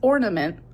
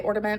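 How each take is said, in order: First: The middle consonant sounds like an N. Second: The middle consonant sounds like a D. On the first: The speaker calls it right. "I understand that it's ornament" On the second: The speaker calls it wrong. "I've always said it with a D instead of an N"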